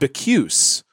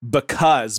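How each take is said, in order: First: The word is pronounced in an odd, distorted way. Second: The word has its ordinary everyday pronunciation. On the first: The reader is thrown off by old-fashioned language. The speaker calls it wrong. "they will just mispronounce words" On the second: This is how the word is said every day. The speaker calls it right. "words that they would say every single day"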